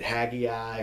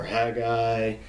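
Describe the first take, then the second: First: "Haggai" said one of two rival ways; first way of saying "Haggai", with an extra middle syllable; alternate pronunciation. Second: "Haggai" said the other rival way; second way of saying "Haggai", in two syllables; alternate pronunciation. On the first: People don't know how to say it, first pronunciation of Haggai. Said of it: "people don't know, is it". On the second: People don't know how to say it, second pronunciation of Haggai. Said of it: "how do you pronounce". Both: Shown as a demonstration.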